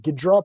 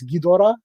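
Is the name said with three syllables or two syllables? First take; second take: two syllables; three syllables. First: The name is said with two syllables. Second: The name is said with three syllables. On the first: This is the older form of the name. "sometimes I say Ghidra because that's how they used to spell it" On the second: This is the current form of the name. "but now it's Ghidorah"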